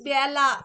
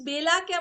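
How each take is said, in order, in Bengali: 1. প্রথম স্বরধ্বনিটি একটি খোলা 'a' ধ্বনি। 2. প্রথম স্বরধ্বনিটি একটি 'e' ধ্বনি।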